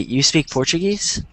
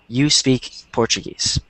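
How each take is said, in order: First: The intonation makes it sound like a question. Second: The intonation makes it sound like a statement. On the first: It asks whether this is true. "the intonation makes you realize um, that it's a question and not a statement" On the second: It asserts a fact. "That's a statement"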